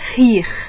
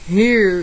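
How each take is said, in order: First: It is said in a Northeastern Brazilian accent. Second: It is said in a São Paulo interior accent. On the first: "No Nordeste é" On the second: "No interior paulista é"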